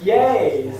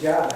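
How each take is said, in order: First: The word begins with a Y sound. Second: The word begins with a J sound. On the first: This is the Portuguese way of saying it. "in Portuguese the J's are pronounced Ya" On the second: This is the original way of saying it. "but it's actually Jai"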